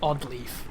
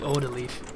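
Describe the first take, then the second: First: The name has no extra middle vowel. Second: The name has an extra middle vowel. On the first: The speaker calls it right. "Her name is Odd Leaf" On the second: The speaker calls it wrong. "I give it like an extra weird bit"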